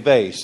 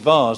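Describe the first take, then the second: First: The word is said with American pronunciation. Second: The word is said with British pronunciation. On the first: The speaker calls it wrong. "The Americans say vase. That's the wrong one" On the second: The speaker calls it right. "English pronunciation is vase. That's the correct one"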